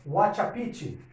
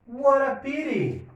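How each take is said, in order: First: The t sounds are hard and separate. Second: The t sounds are soft r-like taps. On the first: The speaker calls it wrong. "horrorosa, Wachapiti, né? Muito feio, horrível, não é assim que eles falam" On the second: The speaker calls it right. "eu vou ter um T com som de R"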